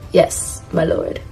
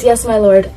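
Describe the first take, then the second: First: Soft, low-key butler's reply; Sebastian. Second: Said in the usual way. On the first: Acted. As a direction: answer quietly like an obedient butler. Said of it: "this is him saying". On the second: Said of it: "he says".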